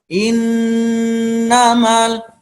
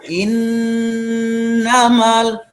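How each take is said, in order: The two takes are said the same way.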